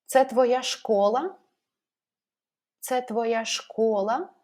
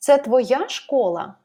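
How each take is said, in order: First: Slow question, pitch rising at the end on "школа"; stress on ШКОЛА. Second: Slow question, pitch jumping up on "твоя", falling on "школа"; stress on ТВОЯ. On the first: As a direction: raise your voice on the last word, "школа". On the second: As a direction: raise your voice on "твоя" in "Це твоя школа?". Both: Shown as a demonstration. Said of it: "raise our voice at the word".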